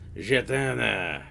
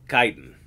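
First: The word gets a French-style pronunciation. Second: The word gets a plain, non-French pronunciation. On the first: The speaker calls it wrong. "you probably think because it's French, it's pronounced jetana" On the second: The speaker calls it right. "even the French is pronounced chitin"

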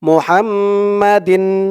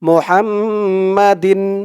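The two takes are said the same way.

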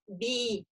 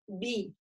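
First: The vowel is tense and spread, as if smiling. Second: The vowel is relaxed, with a heavy lowered jaw. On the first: The speaker calls it wrong. "он такой какой-то неестественный, натянутый" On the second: The speaker calls it right. "Нет, би"

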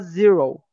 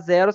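First: It is said with English pronunciation. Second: It is said with Portuguese pronunciation. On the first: The speaker calls it right. "você fala zero" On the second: The speaker calls it wrong. "ao invés de você falar zero"

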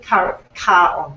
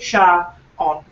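First: The name begins with a hard k sound. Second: The name begins with a soft sh sound. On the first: "ka on with the hard K" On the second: "pronounce it sha on"

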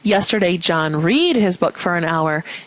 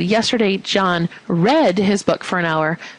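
First: The word 'read' is pronounced like 'reed'. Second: The word 'read' is pronounced like 'red'. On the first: The word is misread as present tense. The speaker calls it wrong. "you would mark read incorrect" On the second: The word is read correctly as past tense. The speaker calls it right. "that's considered correct"

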